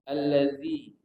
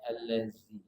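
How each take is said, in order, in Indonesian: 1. Konsonan tengahnya bunyi th lembut. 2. Konsonan tengahnya bunyi z desis. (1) "Tak pakai bunyi desis z" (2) "bukan allazi"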